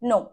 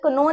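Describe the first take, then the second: First: The word starts directly with the n sound. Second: A k sound is said before the n. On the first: The speaker calls it right. "क्या बोलेंगे" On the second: The speaker calls it wrong. "या कनो नहीं बोलेंगे"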